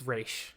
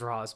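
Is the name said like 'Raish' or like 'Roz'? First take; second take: Raish; Roz. First: The name is said like 'Raish'. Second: The name is said like 'Roz'. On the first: This is how the name should be said. The speaker calls it right. "but it's it's Raish" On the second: This is how the film says it. The speaker calls it wrong. "I get why they pronounce it as Roz"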